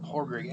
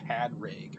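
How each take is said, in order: First: The name is said without a D sound. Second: The name is said with a D sound. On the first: The speaker calls it right. "They don't pronounce the D. It's like" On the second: The speaker calls it wrong. "it's not pa- Padrig or Podrig or whatever"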